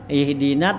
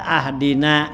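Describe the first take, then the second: First: The word begins with an i vowel. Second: The word begins with an a vowel. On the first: Guide us to the right path. The speaker calls it right. "ihdina tuh hamzahnya kasrah" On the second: Give us a gift. The speaker calls it wrong. "fathah hamzah ... dibaca ahdina"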